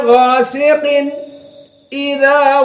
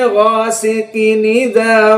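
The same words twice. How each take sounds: First: A brief stop comes after ghasiqin before idza. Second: The final n runs straight into idza without stopping. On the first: "maka dibiarkan namun dengan saqt" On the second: "Ini qiraah dari Wars"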